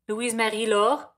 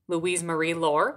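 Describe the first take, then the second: First: The name is said with a French pronunciation. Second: The name is said with an English pronunciation. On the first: The speaker calls it right. "There you go" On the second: The speaker calls it wrong. "but you're saying them wrong"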